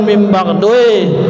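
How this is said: It ends with a 'ui' sound, regionally coloured. The speaker calls it wrong. "bukan mim ba'dui"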